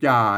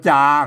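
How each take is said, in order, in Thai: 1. พยางค์นี้ออกเสียงด้วยวรรณยุกต์เอก 2. พยางค์นี้ออกเสียงด้วยวรรณยุกต์สามัญ (1) "ใส่ไม่เอกไปจ่า" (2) "เพิ่นอ่านว่าจาครับเสียงสามัญ"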